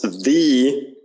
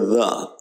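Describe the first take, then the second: First: The word is said with a full vowel. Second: The word is said with a weak vowel. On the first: The speaker calls it wrong. "it's not pronounced the like you see it written" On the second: The speaker calls it right. "You just hear the"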